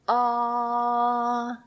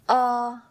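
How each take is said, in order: First: The vowel is held for longer. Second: The vowel is held briefly.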